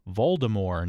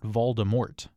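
First: The final T sound is silent. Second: The final T sound is pronounced. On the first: The speaker calls it right. "keeps the T at the end silent" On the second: The speaker calls it wrong.

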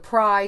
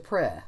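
First: The vowel is long. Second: The vowel is short. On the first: "the pri changed to" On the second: "changed to pri"

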